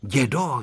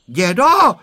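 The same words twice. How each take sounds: First: Unshouted, coaxing address to grandpa; pleading. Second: Loud, high cry for grandpa; frightened cry. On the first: Boy begging grandpa for his secret, pleading. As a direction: coax grandpa gently, without raising the voice. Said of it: "žadonil Honzík". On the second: Boy calling grandpa as the goat approaches, crying out. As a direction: call out sharply for help, pitch raised. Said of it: "vykřikl Honzík". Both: A narrator's reading.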